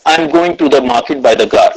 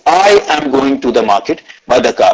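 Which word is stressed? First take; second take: none; I. First: No word stands out; it sounds flat. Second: The word 'I' carries the stress. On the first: "said it or read it like a robot" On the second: "I gave stress on the word I"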